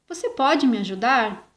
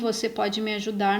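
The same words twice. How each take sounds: First: It is read with a questioning intonation. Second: It is read flat, without question intonation. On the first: The speaker calls it right. "vou ler com a entonação certa" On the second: The speaker calls it wrong. "não usei os sinais de pontuação. Olha como ficou essa frase, como ficou estranha"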